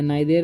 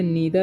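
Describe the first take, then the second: First: It ends with a full 'air' vowel sound. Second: The first vowel is 'ee', with a voiced 'th'. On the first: "नाइदेर नहीं पढ़ना है" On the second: "इसे नीदर नहीं पढ़ना है"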